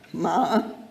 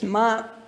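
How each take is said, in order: First: The syllable is said with the third tone. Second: The syllable is said with the first tone. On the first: It means horse. "The third tone" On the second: It means mother. "A word for mother is ma"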